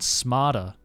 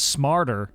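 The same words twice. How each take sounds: First: The R sound after the vowel is dropped. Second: The R sound after the vowel is pronounced. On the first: "lose the R sound if it's at the end of a word or syllable" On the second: "American English is famous for its clear R sounds"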